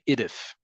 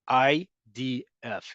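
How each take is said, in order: First: The letters are blended into a single word. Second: Each letter is said separately, one by one. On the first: The speaker calls it wrong. "we don't say I D F" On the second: The speaker calls it right. "Listen to how I said that"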